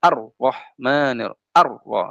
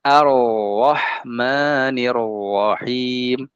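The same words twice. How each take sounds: First: "Ar-Rahmanir" slow but chopped, r stopped dead; wrongly held. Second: "Ar-Rahmanir Rahim" very slow, r and m lingering; correct flowing recitation. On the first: Teacher shows what is not allowed, "Ar-Rahmanir" cut into pieces. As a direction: break "Ar-Rahmanir" with hard stops after each syllable. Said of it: "itu namanya ketahan". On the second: Teacher models the reading, "Ar-Rahmanir Rahim" slow and drawn out. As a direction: recite "Ar-Rahmanir Rahim" slowly, letting consonants flow. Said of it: "Maka bacanya". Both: Shown as a demonstration.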